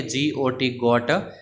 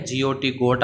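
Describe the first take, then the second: First: Each letter spaced out for the class; slow spelled out. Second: Said in the usual way. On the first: Shown as a demonstration. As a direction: slowly spell जी ओ टी, then say गोट. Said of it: "जी ओ टी गोट अपने बोलते हैं". (जी ओ टी गोट को धीरे-धीरे अक्षर-अक्षर बोलना) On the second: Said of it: "अपने बोलते हैं".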